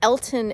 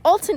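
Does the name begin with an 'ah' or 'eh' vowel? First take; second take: eh; ah. First: The first vowel sounds like 'eh'. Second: The first vowel sounds like 'ah'. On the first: The speaker calls it wrong. "It is not Elton" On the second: The speaker calls it right. "It is Alton"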